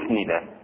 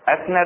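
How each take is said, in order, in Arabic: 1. الفعل مضبوط بصيغة المجهول، يبدأ بضمة 'u'. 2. الفعل مضبوط بصيغة المعلوم، يبدأ بفتحة 'a'. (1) "للمجهول" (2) "مبني للمعلوم"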